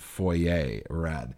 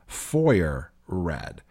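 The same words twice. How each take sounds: First: Foyer is said with a French-sounding pronunciation. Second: Foyer is said with an American pronunciation. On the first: "the French sounding" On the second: "if you're a listener in the US, you would call them"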